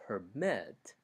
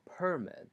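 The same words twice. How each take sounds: First: Per-MIT, "permit" with a strong high ending; stress on second syllable. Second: PER-mit, "permit" falling after a strong start; stress on first syllable. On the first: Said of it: "pitch level is higher for the second syllable". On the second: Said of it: "pitch level is higher for the syllable per". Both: Shown as a demonstration.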